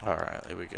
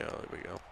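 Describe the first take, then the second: First: Said in the usual way. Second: Hushed whisper to himself. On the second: Real, not acted. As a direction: breathe it under your breath. Repeats phrase in a whisper.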